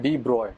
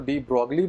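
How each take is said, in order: First: The name ends with an 'oy' sound. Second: The name ends with a 'glee' sound. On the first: The speaker calls it right. "इसका correct pronunciation है" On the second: The speaker calls it wrong. "कुछ लोग इसको डी ब्रॉगली बोलते हैं, लेकिन डी ब्रॉगली is not the correct pronunciation"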